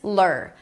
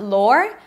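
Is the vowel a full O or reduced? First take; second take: reduced; full O. First: The vowel is a weak, reduced sound. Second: The vowel is a full O sound. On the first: The speaker calls it right. "but it's lur" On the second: The speaker calls it wrong. "It's not lore"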